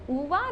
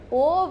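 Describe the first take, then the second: First: The name sounds like 'Uva', ending in 'ah'. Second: The name sounds like 'Ove', ending in 'v'. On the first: The speaker calls it right. "it's pronounced as Uva" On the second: The speaker calls it wrong. "not Ove"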